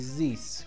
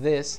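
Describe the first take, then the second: First: The word starts with a buzzing z sound. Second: The word starts with a soft th sound. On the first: The speaker calls it wrong. "people have difficulties pronouncing the TH sound" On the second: The speaker calls it right. "instead of this"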